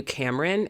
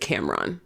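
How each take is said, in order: First: Cameron with a short, reduced last syllable; mispronounced name. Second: Cameron with a full -ron ending; corrected name pronunciation. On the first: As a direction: say Cameron as CAM-rin. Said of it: "it's, you pronounce it Cameron". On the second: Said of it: "you pronounce it Cameron". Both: Shown as a demonstration.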